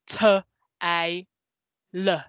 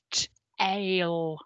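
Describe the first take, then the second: First: "t, a, l" split into three single sounds; separate sounds. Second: "T, ale" joined as two slow chunks; blended sounds. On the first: Teacher showing the harder split that doesn't work. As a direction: sound out each letter apart. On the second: Teacher showing children the easy blend. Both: Shown as a demonstration. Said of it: "rather than".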